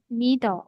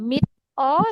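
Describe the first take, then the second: First: The consonant runs straight into the following vowel. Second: The consonant is separated from the following vowel. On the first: The speaker calls it right. "tapi menjadi mido" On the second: The speaker calls it wrong. "Bukan mid o"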